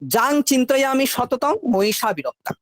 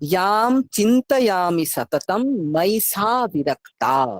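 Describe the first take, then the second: First: The first word begins with a 'j' sound. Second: The first word begins with a 'y' sound. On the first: The speaker calls it wrong. "আমাদের ভুল উচ্চারণটা আগে বলে নি" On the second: The speaker calls it right. "আমরা জাম বলবো না, ইয়াম"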